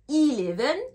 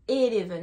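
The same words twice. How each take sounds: First: The first vowel is an 'ee' sound. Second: The first vowel is an 'eh' sound. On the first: The speaker calls it right. "le E se prononce I" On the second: The speaker calls it wrong. "J'entends beaucoup de personnes dire eleven. Non"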